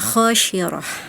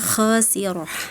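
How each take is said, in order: First: The middle consonant is a sh sound. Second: The middle consonant is a plain s sound. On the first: The speaker calls it wrong. "tadi dibacanya khasyirah" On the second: The speaker calls it right.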